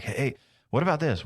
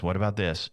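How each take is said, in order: First: Higher, eager burst of an idea; excited client. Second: Said in the usual way. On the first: Retold or imitated. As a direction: imitate a scattered client blurting out ideas. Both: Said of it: "They're like".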